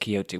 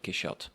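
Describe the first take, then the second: First: The middle consonant is a breathy h sound. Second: The middle consonant is a sh sound. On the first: "the Spanish adopted it as Quixote with an H and now a J" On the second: "French pronounce it Quixote with um, the C H"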